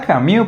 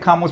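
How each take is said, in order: First: The name is said with a French pronunciation. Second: The name is said with a Spanish pronunciation. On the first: This is the proper pronunciation of the name. "se pronuncia Camus" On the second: This is how everyone commonly says the name. "yo le voy a decir Camus porque así todos le decimos todos"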